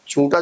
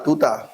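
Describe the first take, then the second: First: The word begins with a clear 'ch' sound. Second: The word begins with a lisped 't' sound.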